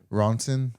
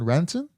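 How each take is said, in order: First: The first vowel sounds like 'Ron'. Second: The first vowel sounds like 'ran'. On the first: The speaker calls it right. "That says John Ronson" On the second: The speaker calls it wrong. "I probably said that wrong"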